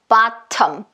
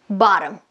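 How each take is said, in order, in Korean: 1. 마지막 M 앞에서는 분명한 모음이 발음됩니다. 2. 마지막 M 앞에서는 모음이 발음되지 않습니다. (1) "이런 경우 bottom, bottom, bottom 이러지 않는다는 얘기예요" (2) "리을에다가 음 소리 붙인다고 생각하세요... 이 소리가 훨씬 더 정확합니다"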